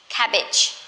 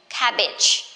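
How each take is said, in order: Both takes have the same delivery.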